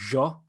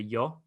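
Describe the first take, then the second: First: It is said in an Argentinian Spanish accent. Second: It is said in a Madrid Spanish accent. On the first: "But the Argentinians will say yo" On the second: "like a traditional Castellano, which is like the main center, Madrid Spanish"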